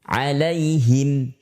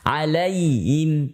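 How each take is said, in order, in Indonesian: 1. Suku kata terakhir dimulai dengan h yang berdesah. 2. Suku kata terakhir dimulai dengan hamzah. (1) "seharusnya seperti itu" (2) "Menjadi hamzah"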